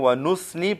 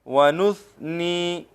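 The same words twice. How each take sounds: First: The consonant after 'nu' is a hissing s. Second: The consonant after 'nu' is a soft th. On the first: The speaker calls it wrong. "सा से वो सीन बनाते हैं" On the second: The speaker calls it right. "सा को हम नरमी के साथ अदा करेंगे"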